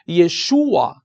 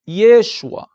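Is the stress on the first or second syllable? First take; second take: second; first. First: The stress falls on the second syllable, 'shu'. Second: The stress falls on the first syllable, 'Ye'. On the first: This is the Hebrew form of the name. "A tonicidade do hebraico está no U" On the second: This is the Aramaic form of the name. "no aramaico, a tonicidade está no início"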